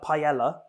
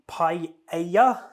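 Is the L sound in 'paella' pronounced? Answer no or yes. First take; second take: yes; no. First: The L sound is clearly pronounced. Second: The L sound is not pronounced. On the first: This is the usual way in the UK. The speaker calls it wrong. "Here in the U K, we call it a paella, but obviously that's wrong" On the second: This is closer to the original Spanish. The speaker calls it right. "I know you don't really pronounce the L's"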